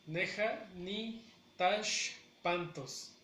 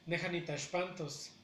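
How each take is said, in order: First: Slow, broken into separate parts with pauses; teacher's slow model of a phrase; syllable by syllable. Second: Said in the usual way. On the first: Shown as a demonstration. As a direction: spell out "Neja ni Tashpantos" in slow chunks. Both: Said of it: "la pronunciación de manera natural".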